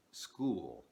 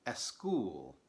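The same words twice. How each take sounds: First: School said with no vowel before the s; gringo pronunciation. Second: Eschool with an eh before the s; Spanish speaker pronunciation. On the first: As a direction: start school straight on the s. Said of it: "instead of". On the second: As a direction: add an eh sound before school. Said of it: "they will say". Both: Shown as a demonstration.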